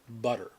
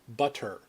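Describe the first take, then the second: First: The middle t is softened into a slur. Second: The middle t is crisp and fully pronounced. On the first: The speaker calls it right. "this word is pronounced with a slight uh, slur" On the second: The speaker calls it wrong. "it's actually supposed to be pronounced butter"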